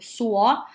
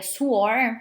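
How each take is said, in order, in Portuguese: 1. A palavra termina sem som de R. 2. A palavra termina com som de R.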